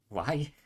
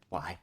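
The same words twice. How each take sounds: First: High, loud frustrated cry; exasperated shout. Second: Said in the usual way. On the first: Real, not acted. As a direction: wail at the game in despair. Exasperated at unaged copper.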